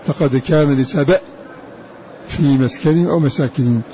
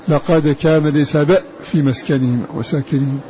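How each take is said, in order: Both takes have the same delivery.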